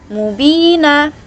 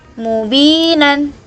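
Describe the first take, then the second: First: The final n is dropped, ending on a vowel. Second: The word ends with a final n sound. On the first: The reader stops at this word. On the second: The reading continues without a stop.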